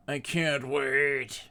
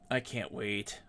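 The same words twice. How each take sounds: First: Very slow, stretching every word; slow drawn out. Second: Said in the usual way. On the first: Shown as a demonstration. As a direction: drag it out, savoring it.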